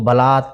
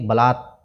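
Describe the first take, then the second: First: The word ends with a short 'a' vowel. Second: The word ends on a bare 't' consonant. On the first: The speaker calls it wrong. "बलात न पढ़ करके" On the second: The speaker calls it right. "इसमें अ की ध्वनि नहीं आनी चाहिए"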